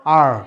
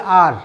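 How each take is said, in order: First: Low আর with the tongue curled back; American R. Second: আর with a simple, uncurled Bengali r; wrong R. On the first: Teacher corrects the class, American retroflex আর. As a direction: fold the tongue to the palate and hold the r in আর. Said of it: "জিহ্বাটা একটু fold হবে". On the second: Teacher shows the careless incorrect way, plain Bengali আর. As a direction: say আর casually, without folding the tongue. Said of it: "this is not correct". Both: Shown as a demonstration.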